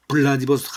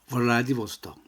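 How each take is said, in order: First: It starts with a b sound, lips closed. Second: It starts with a v sound, lip bitten. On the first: The speaker calls it wrong. "블라디보스톡 블라디보스톡 하면 안 됩니다" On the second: The speaker calls it right. "입술을 살짝 물면서"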